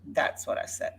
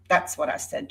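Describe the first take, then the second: First: Soft, breathy murmured aside; muttered repeat. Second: Said in the usual way. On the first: Real, not acted. Vlogger muttering again to herself after addressing Jody, quiet.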